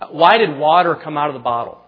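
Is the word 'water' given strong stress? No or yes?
no. The word 'water' carries no special stress. The question asks what made the water come out.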